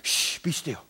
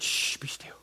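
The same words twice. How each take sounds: First: Put-on soft hush to a child; a hushed father's shush; hushing whisper. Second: Put-on whispered hush to a child; a whispered shush from a stern father. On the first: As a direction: quietly shush her in church. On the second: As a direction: hiss it under your breath in church. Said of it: "And he said".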